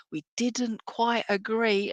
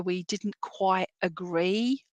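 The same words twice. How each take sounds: First: "didn't quite agree" drawn out slowly; pointed understatement. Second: Said in the usual way. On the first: Retold or imitated. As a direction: linger on "quite agree", much slower. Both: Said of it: "And I say that with".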